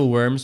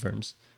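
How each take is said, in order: First: The name begins with a W sound. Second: The name begins with a V sound.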